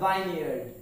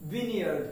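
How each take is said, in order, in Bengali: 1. প্রথম সিলেবলটি 'vine' এর মতো শোনায়। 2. প্রথম সিলেবলটি 'vin' এর মতো শোনায়। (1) "not vineyard" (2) "E is totally silent, and that means the pronunciation is vineyard"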